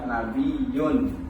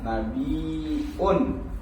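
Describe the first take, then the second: First: A y-sound comes before the ending. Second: A glottal stop comes before the ending. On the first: "dan meninggalkan hamzah" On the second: "bil hamzi, dengan hamzah"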